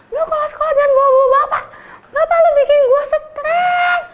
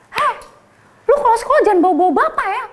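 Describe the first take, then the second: First: High, fast laughing yell; laughing threat. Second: High, fast laughing threat; mock confrontation. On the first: Retold or imitated. Senior telling the teacher's son off, high laughing yell. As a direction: threaten him, cracking up. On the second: Senior confronting the teacher's son in class, fast laughing threat. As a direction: threaten him, half laughing.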